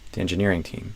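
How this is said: The stress falls on engineering. This is the normal, neutral phrasing. "I would usually stress engineering more than team"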